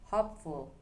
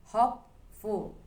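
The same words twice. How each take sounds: First: Said in the usual way. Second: Hopeful said slowly with hope stressed and ful light. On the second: Shown as a demonstration. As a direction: lean on the first syllable of Hopeful. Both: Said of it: "The stress stays on hope".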